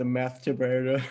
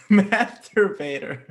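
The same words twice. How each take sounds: First: Said in the usual way. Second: Higher, slow repeat of the punchline through laughter; laughing. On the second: Real, not acted. Reader repeating the nickname from the story, laughing. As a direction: savor the word while cracking up.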